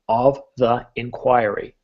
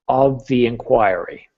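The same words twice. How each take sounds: First: Each word is said separately, without linking. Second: The words flow together with softened consonants. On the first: The speaker calls it wrong. "you kind of read like this with each word being its unique unto its own" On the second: The speaker calls it right. "soften the consonant and get it to flow"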